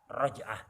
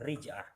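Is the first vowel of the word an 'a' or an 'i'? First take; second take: a; i. First: The first vowel is an open a sound. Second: The first vowel is a close i sound. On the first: This is the more eloquent reading. "lebih fasih fathah" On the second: This is an allowed alternative reading. "Boleh dibaca kasroh"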